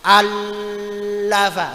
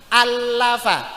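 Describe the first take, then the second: First: The doubled L is held for a long time. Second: The doubled L is pressed quickly and moves straight on. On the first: The speaker calls it wrong. "Ora oleh suwi-suwi. Allafa, enggak bisa" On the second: The speaker calls it right. "langsung diambil, tekan, cepat"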